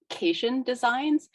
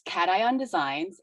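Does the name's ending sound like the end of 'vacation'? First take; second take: yes; no. First: The name ends like the word 'vacation'. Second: The name does not end like 'vacation'. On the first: The speaker calls it wrong. "like the ending of vacation" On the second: The speaker calls it right. "so first off, it's Cation Designs"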